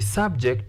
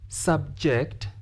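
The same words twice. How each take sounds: First: The stress is on the first syllable. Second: The stress is on the second syllable. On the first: It is used as a noun. "noun, we stress the first" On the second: It is used as a verb. "This word has been used as uh, a verb. Therefore, we stress the second"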